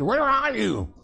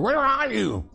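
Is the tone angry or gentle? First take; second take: angry; angry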